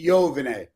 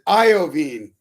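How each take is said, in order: First: The name has an Italian pronunciation. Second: The name has an American pronunciation. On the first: "if you were in Italy, you would say Jovine" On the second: "It is Iovine"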